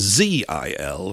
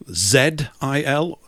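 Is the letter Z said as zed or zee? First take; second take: zee; zed. First: Z is said the American way, zee. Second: Z is said the British way, zed.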